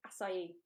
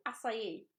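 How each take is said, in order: First: Acai said as ah-sigh-ee, softly; teaching how to say acai; acai pronounced. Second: Acai said again as ah-sigh-ee, softly; confirming acai, a little unsure; acai pronounced. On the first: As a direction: say acai in three syllables. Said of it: "If you didn't know how to say that word". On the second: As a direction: repeat acai in three syllables. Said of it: "As far as I know". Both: Shown as a demonstration.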